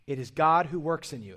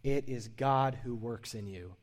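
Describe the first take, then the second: First: God punched loud with a falling close; emphatic, louder declaration; stress on God. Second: Slow, deliberate highlight; slow and weighty; slow emphasis. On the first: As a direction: hit the word God hard. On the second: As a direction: lay each word down slowly for note-takers. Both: Shown as a demonstration. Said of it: "I would highlight this if you're taking notes".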